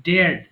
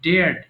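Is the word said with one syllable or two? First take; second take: one; one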